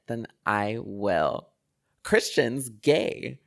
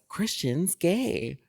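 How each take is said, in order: First: Slow, louder, drawn-out reveal; dramatic announcement. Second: Slow, drawn-out gossipy reveal, pitched up; dramatic announcement. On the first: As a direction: drop the bombshell with relish. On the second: Grandma outing grandson at Thanksgiving, slow dramatic reveal. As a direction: savour the reveal like juicy gossip. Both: Retold or imitated. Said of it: "Like, very dramatic".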